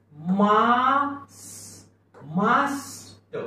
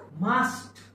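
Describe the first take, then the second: First: मास्ट drawn out very long, ट released late; slow, high blending of मास्ट; sounded out slowly. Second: Said in the usual way. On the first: Shown as a demonstration. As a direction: stretch the "aa" and "s" of मास्ट. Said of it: "मागून यस आलाय म्हणून". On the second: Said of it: "शब्द काय झाला?".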